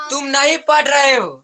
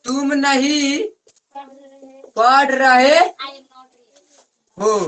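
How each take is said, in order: First: Said in the usual way. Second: तुम नहीं, पढ़ रहे, हो in chunks with long pauses; dictation pace. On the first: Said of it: "teacher models then dictates". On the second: Shown as a demonstration. Tutor dictating the sentence for pupils to copy, pausing between chunks. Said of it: "teacher dictates word by word".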